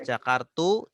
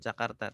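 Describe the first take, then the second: First: The word ends with a u vowel. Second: The word ends with an a vowel. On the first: The speaker calls it wrong. "Tidak dibaca Jakartu" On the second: The speaker calls it right. "Jakarta selalu dibaca Jakarta"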